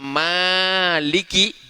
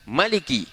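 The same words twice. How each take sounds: First: The first vowel after m is long. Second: The first vowel after m is short. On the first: "mimnya dipanjangkan" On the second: "mimnya tidak panjang"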